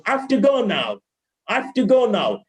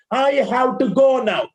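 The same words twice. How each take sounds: First: "I have to" shrunk to "af-tuh"; corrected linking. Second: "have to" as a full "how too"; wrong way. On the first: Teacher modelling after the error, corrected linking. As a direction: glide through "have to" as one weak word. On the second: Teacher demonstrating the error, wrong way. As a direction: give "have to" two separate full vowels. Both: Shown as a demonstration.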